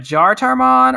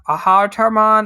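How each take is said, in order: First: The name begins with a J sound. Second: The name begins with an H sound. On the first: "I don't know if you pronounce it like a Jartarmon" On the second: "J is the H sound"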